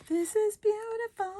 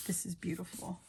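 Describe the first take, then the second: First: Very high sing-song coo; high-pitched gushing. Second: Soft, hushed appreciation; quiet admiration. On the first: Crafter repeating praise of the paper, high-pitched gushing. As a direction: gush over it in a tiny high voice. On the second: Crafter admiring a paper design, quiet admiration. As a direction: admire it softly, almost to yourself. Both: Real, not acted.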